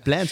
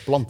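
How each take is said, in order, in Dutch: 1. Het woord wordt uitgesproken met een Engelse klinker. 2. Het woord wordt uitgesproken met een Nederlandse klinker. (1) "Je zei niet plant" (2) "je zei plant"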